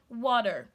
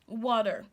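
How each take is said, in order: First: The T is replaced by a D sound. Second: The same.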